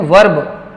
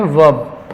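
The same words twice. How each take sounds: First: वर्ब with the R sounded; mispronounced by pupils. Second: वर्ब with a silent R; correct pronunciation. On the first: Retold or imitated. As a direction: imitate a pupil saying "varb" for वर्ब. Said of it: "कई बच्चे क्या पढ़ते हैं?". (वर्ब में र साफ़ बोलते हुए) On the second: Shown as a demonstration. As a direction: say वर्ब as "vawb", no R sounded. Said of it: "इसको पढ़ते हैं वर्ब". (वर्ब बिना र की आवाज़ के)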